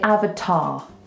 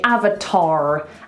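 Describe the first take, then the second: First: The final R sound is dropped, ending open. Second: The final R sound is clearly pronounced. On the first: "non-rhotic... It's just open, open, open" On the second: "Rhotic means we pronounce our R's. So we say avatar"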